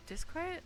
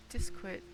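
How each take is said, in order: First: "disquiet?" tried again with a rising, asking tune; second guess at "disquiet", ending up in a question; questioning pronunciation. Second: "disquiet" said tentatively, falling, stress on the first part; first try at "disquiet", unsure of the sounds; unsure pronunciation. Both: Real, not acted. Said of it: "I don't actually know how to say that word".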